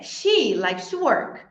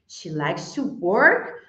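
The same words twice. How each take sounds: First: The word she is stressed. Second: The word work is stressed. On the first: It is her, not someone else, who likes to work. "I thought it was who who likes to work" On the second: Whether she really works is questioned. "she likes to pose as she's at work"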